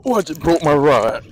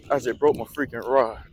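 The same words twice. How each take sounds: First: Real shocked shout. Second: Said in the usual way. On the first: Real, not acted. Rod snaps on a big fish.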